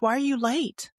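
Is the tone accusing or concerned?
concerned. The question sounds warm and concerned. The speaker is worried about the listener's wellbeing. "Similar words, different tones, different meanings"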